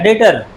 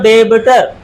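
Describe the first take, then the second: First: The b sound is left out entirely. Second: The b sound is pronounced in the middle. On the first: The speaker calls it right. "पर बी silent होता है" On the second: The speaker calls it wrong. "अगर पढ़ा जाए तो डेबिटर"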